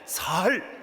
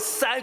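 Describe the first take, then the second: First: The word starts with a plain s-sound. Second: The word starts with a tense s-sound. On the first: The person cannot make the tense sound. "경상도 분들이 쌀을 못하고 살 그러잖아요" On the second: This is the form the listener is asked to say. "아니 그러지 말고 쌀"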